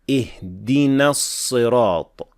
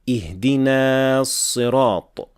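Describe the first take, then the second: First: The vowel ending the first word is kept short. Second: The vowel ending the first word is drawn out. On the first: The speaker calls it right. "we say" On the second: The speaker calls it wrong. "We do not say"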